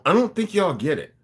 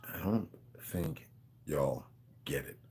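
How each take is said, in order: First: Said in the usual way. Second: Very low, soft and slow, word by word; slow hushed emphasis. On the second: Real, not acted. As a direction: drop right down and space out every word. Repeats it slowly for emphasis.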